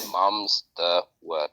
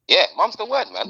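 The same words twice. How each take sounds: First: Low, very slow drawn-out catchphrase; mock-dramatic catchphrase. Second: Upbeat catchphrase. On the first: Slow deep catchphrase intro. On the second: Pretend. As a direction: toss the catchphrase up lightly, lifting "word". Catchphrase repeated, bright.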